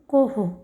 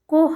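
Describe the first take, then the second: First: The h is followed by an echoed o vowel. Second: It ends on a bare h with no vowel. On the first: The speaker calls it right. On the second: The speaker calls it wrong.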